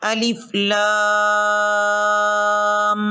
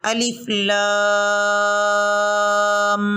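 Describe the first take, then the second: Both takes have the same delivery.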